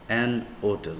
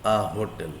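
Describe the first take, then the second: First: "hotel" as "otel", linked after an; silent H. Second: "hotel" with the H pronounced; sounded H. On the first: Teacher pairing it with an, "hotel" with silent H. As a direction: drop the H from "hotel". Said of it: "But if it is pronounced". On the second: Teacher pairing it with a, "hotel" with H sounded. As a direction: keep the H audible in "hotel". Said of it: "If we pronounce like". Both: Shown as a demonstration.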